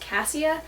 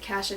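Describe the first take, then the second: First: It uses a pronunciation other than the Idaho one. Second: It uses the local Idaho pronunciation. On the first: This may be the usual pronunciation elsewhere. "maybe it's pronounced C A S S I A is pronounced cassia" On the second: This is how people say it where the speaker grew up. "I pronounce it cassia just because that's where I'm from"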